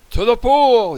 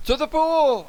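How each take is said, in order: First: High, loud firemen's shout; yell. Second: Very high, thinner cry; boy's yell. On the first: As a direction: yell it out as a rallying call. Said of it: "yelled the firemen". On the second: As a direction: echo the call in a high-pitched boy's yell. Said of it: "I yelled". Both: A narrator's reading.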